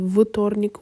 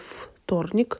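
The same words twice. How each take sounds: First: The first consonant is a voiced v sound. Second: The first consonant is a voiceless f sound. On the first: The speaker calls it wrong. "we will not say вторник" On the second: The speaker calls it right. "the voiceless sound t gives its features to the previous letter"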